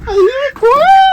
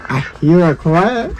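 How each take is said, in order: First: Very high, rising playful voice; high-pitched singsong with a held "quack". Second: Low start, rising at the end; low-pitched, questioning lilt on "quack"; low listening voice. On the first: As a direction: send it way up, stretching "quack". Repeats it far higher. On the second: Two takes while searching for bird. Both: Pretend.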